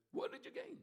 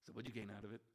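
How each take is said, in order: First: "What did you gain?" thrown up high in disbelief; incredulous high repeat. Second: Said in the usual way. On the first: Acted. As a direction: ask it again, far higher and amazed. Repeated question, pitched high.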